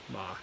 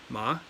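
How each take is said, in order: First: The pitch dips down low. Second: The pitch rises like a question. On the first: "third tone" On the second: "The second tone is a rising tone"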